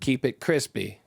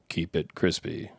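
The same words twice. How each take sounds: First: It is said in an ordinary natural voice. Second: It is said in a put-on character voice.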